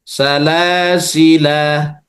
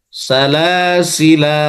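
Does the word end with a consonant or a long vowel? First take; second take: long vowel; long vowel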